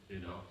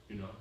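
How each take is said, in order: No difference in how they are said.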